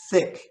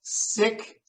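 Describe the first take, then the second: First: "thick" opening on a th with the tongue out. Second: "Sick" opening on a long hissed s. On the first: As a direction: contrast "thick" with sick. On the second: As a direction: contrast "Sick" with thick. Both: Shown as a demonstration. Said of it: "So try that with just sick and thick".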